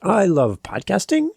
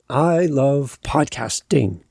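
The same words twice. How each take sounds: First: The pitch rises at the end of the sentence. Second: The pitch falls at the end of the sentence. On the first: The speaker is unsure and the point is open for debate. "that rise implies to the listener ... that you're not sure" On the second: The speaker is certain and speaks with authority. "My words went down and I ended with authority"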